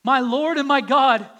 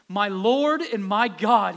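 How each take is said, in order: First: Higher, much louder cry of faith; exclaimed. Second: Slow, loud exclamation; exclaimed. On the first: Thomas's awed confession, loud and higher. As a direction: cry it out in awe. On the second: Thomas meeting Jesus, slow loud exclamation. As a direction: declare it in awe, drawn out. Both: Acted. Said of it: "he exclaimed".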